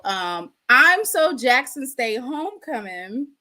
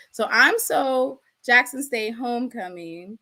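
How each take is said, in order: First: Drawn out, stressing I'm; slow proud declaration. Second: Said in the usual way. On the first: Shown as a demonstration. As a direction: savour the catchphrase slowly. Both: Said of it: "y'all in the chat, go ahead and put".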